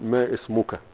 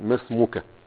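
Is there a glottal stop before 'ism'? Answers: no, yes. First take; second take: yes; no. First: A glottal stop is said before 'ism'. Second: 'Ma' runs straight into 'smak' with no stop. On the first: The speaker calls it wrong. "لا تقل ما اسمك" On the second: The speaker calls it right. "قل ما اسمك"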